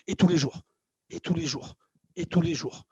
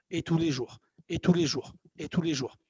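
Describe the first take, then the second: No difference in how they are said.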